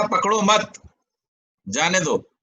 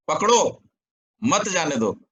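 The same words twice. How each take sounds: First: "पकड़ो मत" as one unit, long pause, then "जाने दो"; pause after मत. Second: "पकड़ो" alone, pause, then "मत जाने दो" together; pause after पकड़ो. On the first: Teacher shows the intended meaning, pausing after मत. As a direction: break after मत, letting जाने दो fall. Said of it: "किस अर्थ में कहा गया". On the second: Teacher shows the opposite reading, pausing after पकड़ो. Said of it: "विरुद्ध अर्थ क्या निकाला". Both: Shown as a demonstration.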